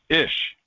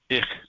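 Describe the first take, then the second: First: The word ends in a soft 'sh' sound. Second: The word ends in a harsher 'ch' sound. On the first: This is how some regions say it. "but in some areas it's ish" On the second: This is the usual form of the word. "the word I is ich"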